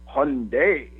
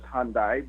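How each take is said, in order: First: The ending rhymes with Sunday. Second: The ending does not rhyme with Sunday. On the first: This is how it is said in Korea. "if you were to go to Korea, I believe it's pronounced Hyundai" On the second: This is how Americans usually say it. "Americans we we like to pronounce it as Hyundai"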